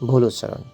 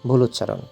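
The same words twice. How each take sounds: No difference in how they are said.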